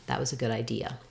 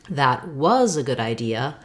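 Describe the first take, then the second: First: The stress falls on the word idea. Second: The stress falls on the word was. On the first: "our typical pattern is to stress the last content word like thinking or idea" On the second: "meaning stressing on the past"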